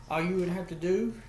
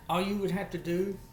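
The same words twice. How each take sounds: The two takes are said the same way.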